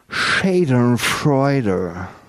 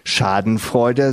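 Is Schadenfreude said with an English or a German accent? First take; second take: English; German. First: The word is said with an English accent. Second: The word is said with a German accent. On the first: "sondern Schadenfreude" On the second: "Nur sagen sie nicht Schadenfreude"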